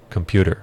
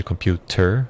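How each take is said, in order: First: "computer" said quickly as "compyooder". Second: "computer" slowly with a clear T, rising at the end; true T pronunciation. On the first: Teacher giving the everyday form after the careful one, D-like T. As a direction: soften the T of "computer" into a D. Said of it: "quase como se um D estivesse no lugar do T". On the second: Teacher clarifying what the word really is, careful T. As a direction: sound out the T in "computer". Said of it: "Mas na verdade é". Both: Shown as a demonstration.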